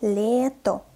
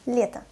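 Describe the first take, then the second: First: "Лето" slowly with a full final O; slow, articulated reading. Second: "Лето" quickly, final O reduced to A; fast, natural reading. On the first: Teacher models for learners, "Лето" slow with a clear O. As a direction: spell out "Лето" in two held syllables. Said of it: "what is articulated pronunciation". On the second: Teacher reads as a native, "Лето" fast with O as A. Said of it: "I pronounced the letter O as A". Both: Shown as a demonstration.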